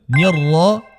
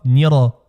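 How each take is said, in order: First: The r sound is held doubled. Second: The r sound is short and single. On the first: The speaker calls it right. "bien marquer la shadda" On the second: The speaker calls it wrong. "et pas nira"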